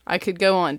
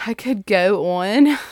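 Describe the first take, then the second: First: Said in the usual way. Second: "on" stretched with a Baltimore "aw-ohn" vowel, slowly. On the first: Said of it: "did you catch that Baltimore O". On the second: Shown as a demonstration. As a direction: drawl "on" the Baltimore way. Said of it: "did you catch that Baltimore O I just said".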